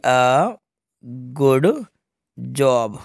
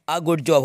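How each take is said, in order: First: "a ... good ... job" with long pauses between words; word-by-word dictation. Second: Said in the usual way. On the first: Shown as a demonstration. ("a", "good", "job" रुक-रुक कर लिखवाते हुए)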